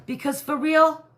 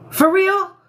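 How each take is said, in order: First: Said in the usual way. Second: Squeaky, high, loud incredulous "For real?"; funny for real. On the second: Real, not acted. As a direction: pitch "For real?" way up in mock disbelief. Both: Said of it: "I know I'm saying that funny".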